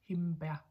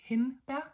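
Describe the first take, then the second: First: The nasal before the b is made with the lips. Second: The nasal before the b is made with the tongue. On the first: The speaker calls it wrong. "the M and the B are pronounced at the same place with our lips. That's the wrong one" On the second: The speaker calls it right. "The right one is hindbær"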